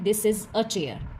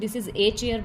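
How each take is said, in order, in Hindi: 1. Article एक छोटी, हल्की 'uh' आवाज़ है। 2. आर्टिकल एक पूरी, लंबी 'ay' आवाज़ है। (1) "हमेशा इस तरीके से प्रोनाउंस करते हैं" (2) "तो वो एक इंग्लिश लैंग्वेज सही नहीं निकलती है"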